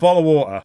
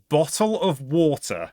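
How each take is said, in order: First: The T is replaced by a glottal stop. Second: The T is pronounced as a clear T sound. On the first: "I call it a bottle of water" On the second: "In proper English, this is a bottle of water"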